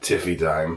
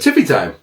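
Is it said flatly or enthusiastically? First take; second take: flatly; enthusiastically. First: It is said flatly, without enthusiasm. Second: It is said with lively enthusiasm.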